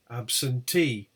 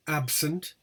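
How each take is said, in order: First: ABSENTEE with long stressed TEE; stress on suffix. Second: ABSENT stressed on AB; stress on first syllable. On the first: Teacher showing stressed suffix, stress on TEE. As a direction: lean slowly onto the TEE of absentee. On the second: Teacher contrasting word with suffixed form, stress on AB. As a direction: hit the AB in absent. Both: Shown as a demonstration. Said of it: "the suffix is stressed".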